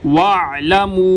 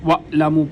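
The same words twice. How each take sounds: First: The throat sound flows smoothly from mid-throat. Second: The throat sound is cut off with a jerk. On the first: The speaker calls it right. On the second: The speaker calls it wrong.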